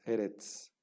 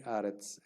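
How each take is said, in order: First: "eretz" with two e sounds; segol vowels. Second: "aretz" opening on an a sound; kamets vowel. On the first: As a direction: say "eretz" with e in both syllables. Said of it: "una palabra segolada que tiene dos segoles". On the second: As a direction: say "aretz" with a first-syllable a. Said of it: "toma como vocal un kamets". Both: Shown as a demonstration.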